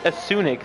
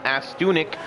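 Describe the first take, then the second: First: The name is said without a T sound. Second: The name is said with a T sound. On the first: The speaker calls it right. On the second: The speaker calls it wrong.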